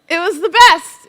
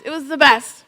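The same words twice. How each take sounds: First: Excited emphasis. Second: Said in the usual way. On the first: Real, not acted.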